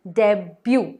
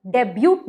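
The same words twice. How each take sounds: First: डेब्यू with a silent t, ending "byoo"; "डेब्यू" ending on the vowel; correct debut. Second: डेब्यूट with the final t sounded; "डेब्यूट" ending on a hard t; wrong debut. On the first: Teacher gives viewers the right "डेब्यू", t silent. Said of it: "डेब्यूट नहीं". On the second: Teacher shows viewers the wrong "डेब्यूट", t sounded. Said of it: "नहीं". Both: Shown as a demonstration.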